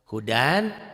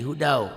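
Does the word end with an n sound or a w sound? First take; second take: n sound; w sound. First: The word ends with a clear n sound. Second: The final n merges into a w sound.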